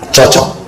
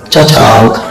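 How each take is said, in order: First: It is said plainly and approvingly. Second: It is said boldly, with a swaggering tone. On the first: The two things truly fit well together. "Kalau saya bilang begini" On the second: A casual, showy expression of approval. "kalau mau ngomong cocok gagah sekali"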